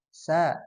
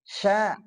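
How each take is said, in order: First: The consonant is a plain hissing s sound. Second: The consonant is a hushing sh with spread air. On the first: The speaker calls it wrong. "kalau tafasyinya hilang jadi sa" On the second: The speaker calls it right. "itu tafasyi"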